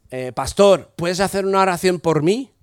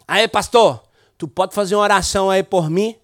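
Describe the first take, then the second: First: Said in the usual way. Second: The request spoken in Brazilian Portuguese. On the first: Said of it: "y después en castellano". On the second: Retold or imitated. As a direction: ask for prayer in Portuguese, like the young man did. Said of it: "voy a hablar en portugués".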